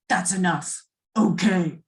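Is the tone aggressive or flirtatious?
aggressive. It is said in an aggressive, hostile tone. "you can say it aggressively"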